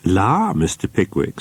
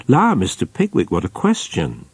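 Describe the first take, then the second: First: Flustered landlady. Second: Bashful delight at his question; flustered landlady. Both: A narrator's reading. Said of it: "colouring up to the very border".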